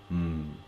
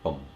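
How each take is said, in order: First: The syllable is reduced to a short hum. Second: The syllable is said fully with its vowel. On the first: "in the third way you change to mm" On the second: "in second way"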